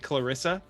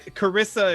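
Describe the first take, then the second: First: The name has an L sound after the K. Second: The name has no L sound after the K. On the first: The speaker calls it right. "I couldn't say Clarissa" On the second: The speaker calls it wrong. "like Cari- Carissa"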